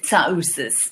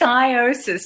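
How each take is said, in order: First: The name begins with a ts sound. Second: The name begins with a plain s sound. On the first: This is the original Greek form of the name. "the Greek pronunciation is" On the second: This is the everyday anglicized form of the name. "Just drop the T"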